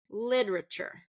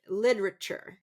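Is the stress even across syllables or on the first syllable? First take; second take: first syllable; first syllable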